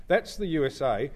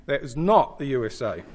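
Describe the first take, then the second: First: Said in the usual way. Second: Not leaned on, falling, with a laugh; stress on not. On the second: Shown as a demonstration. Speaker to audience showing a map, stress on not. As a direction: punch the word not in That is not the U S A.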